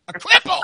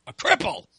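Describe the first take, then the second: First: High, loud exaggerated repeat; hammed-up self-mockery. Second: Restrained self-deprecating label; self-mocking. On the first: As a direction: squawk it in mock self-pity, much higher and louder. Self-mocking word, louder repeat. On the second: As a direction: drop it in as a wry jab at yourself. Self-mocking word, first take.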